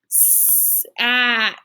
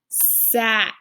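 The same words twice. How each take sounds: First: The word is blended slowly with stretched sounds. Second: The word is blended faster and more smoothly. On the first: "Blend them together" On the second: "A little bit faster this time"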